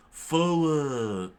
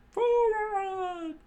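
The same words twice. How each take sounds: First: Loud, raised, drawn-out battle call; called command. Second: Very high, screechy echo of a battle cry; screamed command. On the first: Pirate orders the attack, loud raised call. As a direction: call the charge, letting it fall away. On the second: Crew takes up the attack order, high screech. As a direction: shriek the charge in falsetto, drawn out. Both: A narrator's reading.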